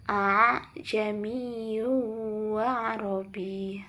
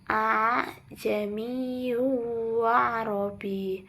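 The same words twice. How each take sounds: The two takes are said the same way.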